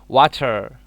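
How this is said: It is said in a British accent. "British say that water"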